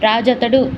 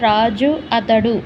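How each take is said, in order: First: The two words are merged into one. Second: The two words are said separately. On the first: "వేగంగా మాట్లాడడం" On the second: "పదం పదం విడదీసి మాట్లాడడం"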